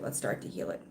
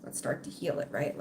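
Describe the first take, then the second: First: Low soft repeat. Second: Breathy whisper, softer; whispered plea. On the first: Repeating her plea to viewers, low and soft. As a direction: lower and softer, voiced. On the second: Urging broken viewers to heal, whispered. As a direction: urge them gently, almost no voice. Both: Real, not acted. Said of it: "walking around with trust issues".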